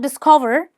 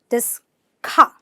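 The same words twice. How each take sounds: First: The 'o' vowel is not an 'ah' sound. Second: The 'o' vowel is an 'ah' sound. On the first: The speaker calls it wrong. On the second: The speaker calls it right.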